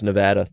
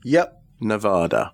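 First: Nevada with the vowel of cat, ne-VAD-a; "Nevada" rhyming with "had a"; American Nevada. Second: Nevada with a broad ah, ne-VAH-da; "Nevada" with a long ah sound; English-style Nevada. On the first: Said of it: "You say it that way". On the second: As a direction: say "Nevada" the English way, middle vowel as in father. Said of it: "You say it that way, they'll mock you". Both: Shown as a demonstration.

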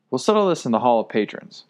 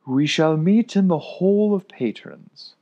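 First: Firm and settled, no doubt; decisive. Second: Slow, louder and higher proclamation; solemn decree. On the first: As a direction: lay down the decision firmly. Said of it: "I said decisively". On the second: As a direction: proclaim it like a ruling. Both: Acted.

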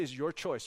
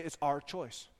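First: "your" made the strongest word, said softly; stress on "your". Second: "our" made the strongest word, said softly; stress on "our". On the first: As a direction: lean on "your" to place the choice elsewhere. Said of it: "She didn't say". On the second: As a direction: gently lean on "our" to share the choice. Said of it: "she was kind enough to say". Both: Retold or imitated.

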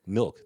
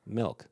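First: Milk with a clear short i, mill-k; proper milk. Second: Milk said as "melk", vowel like E. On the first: Showing her how to say Milk with a short i. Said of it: "I like a glass of milk". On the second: Imitating her saying Milk as "melk". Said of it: "You just said milk with an E". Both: Shown as a demonstration.

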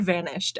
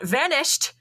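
First: Said in the usual way. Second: Higher-pitched melodramatic exclamation; mock call-out. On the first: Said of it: "just yell the word". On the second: Podcaster imitating the mongoose ending a chat, mock melodramatic call-out. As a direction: call it out theatrically, without real volume. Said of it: "he would call out".

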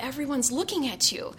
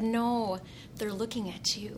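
First: A touch of worried unease; mildly nervous. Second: Quiet, assured retold answer; tender, hushed prince's line; gentle reply. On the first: Retold or imitated. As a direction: lightly voice a nervous, self-conscious girl. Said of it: "she said nervously". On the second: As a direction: softly correct her, letting the end drop. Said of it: "he just looked at her and said".

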